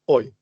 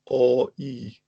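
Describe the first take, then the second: First: Two vowels are said fast as one glide. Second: Two vowels are said slowly and separately. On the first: "if you say that fast enough, it becomes oi" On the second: "another one is o e"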